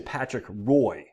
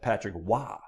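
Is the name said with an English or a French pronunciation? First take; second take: English; French. First: The name is said with an English pronunciation. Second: The name is said with a French pronunciation. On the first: "Some people say" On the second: "Us French Canadians say"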